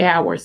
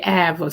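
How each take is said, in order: First: It is said in a plain standard accent. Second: It is drawled in a Southern Alabama accent. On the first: The relative never said it this way. "He never say hours" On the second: This is how an older relative said it. "in my granddaddy's voice. He said hours"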